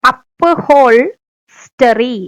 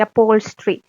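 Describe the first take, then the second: First: അപ്ഹോൾസ്റ്ററി drawn out very slowly, every letter sounded; teacher stretching അപ്ഹോൾസ്റ്ററി slowly so each letter can be heard; spelling pronunciation. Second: Said in the usual way. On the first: Shown as a demonstration. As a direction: spell it out as you say അപ്ഹോൾസ്റ്ററി, syllable by syllable. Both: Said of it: "എല്ലാം ഓരോന്നുള്ളൂ ട്ടോ".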